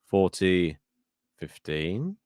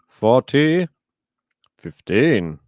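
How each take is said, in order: First: The score is called in a questioning, inquisitive tone. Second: The score is called in a plain, flat tone.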